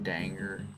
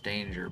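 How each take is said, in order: First: The first syllable sounds like 'dang'. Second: The first syllable sounds like 'dain'. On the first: "really pronounce it danger? Like dang" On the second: "I know it's pronounced danger"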